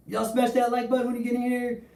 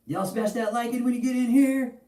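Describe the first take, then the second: First: High, pumped-up shout-out; rally the chat, pitched way up; hype call to viewers. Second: High, pumped-up shout-out to the chat; rally the viewers, pitched way up; hype call to viewers. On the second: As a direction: streamer hype voice calling for likes. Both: Acted. Streamer calling viewers to like.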